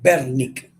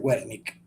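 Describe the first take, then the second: First: The first sound is a B sound. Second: The first sound is an English W sound. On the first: The speaker calls it right. "se dice Wernicke" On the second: The speaker calls it wrong. "no se dice Wernicke"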